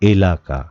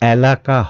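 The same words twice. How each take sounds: First: The first vowel is closer, like 'bet'. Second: The first vowel is open, like 'cat'. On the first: The speaker calls it right. "উচ্চারণটি হবে এলাকা" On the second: The speaker calls it wrong. "এই উচ্চারণটি এলাকা হবে না"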